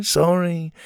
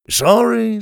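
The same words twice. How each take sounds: First: Said in the usual way. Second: High, loud sorry called after them; called-out apology. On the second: Acted. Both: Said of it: "he called after them".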